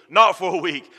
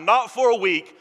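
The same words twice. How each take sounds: First: "not" hit loud and firm; stress on NOT. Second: "for" pitched higher; stress on FOR. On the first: Preacher correcting himself, stress on not. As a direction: punch the word "not". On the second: Preacher to congregation, stress on for. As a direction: lean on "for". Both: Shown as a demonstration.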